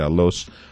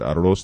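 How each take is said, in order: First: The word is said with an l sound. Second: The word is said with an r sound. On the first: The speaker calls it wrong. "They say alos" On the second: The speaker calls it right. "They can't say the word arroz"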